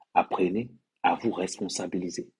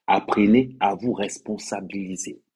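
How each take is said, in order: First: Said in the usual way. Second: Slow, insistent demand; slow emphatic repeat. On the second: Shown as a demonstration. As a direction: hammer home "Apprenez", slow and firm.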